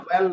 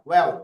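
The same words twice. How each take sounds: First: "well" with a clear, held l; rejected pronunciation. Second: "well" with a dark l, close to "weo"; corrected pronunciation. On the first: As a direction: lengthen the final l in "well". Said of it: "well না, well". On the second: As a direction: let the l of "well" soften towards a w. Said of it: "উচ্চারণটা কেমন?". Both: Shown as a demonstration.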